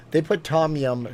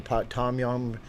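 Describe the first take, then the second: First: Said in the usual way. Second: A light, unintended Asian accent on "tom yum"; accidental Asian accent. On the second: Real, not acted. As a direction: slip briefly into an Asian accent. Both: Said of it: "Why did I start talking with an accent".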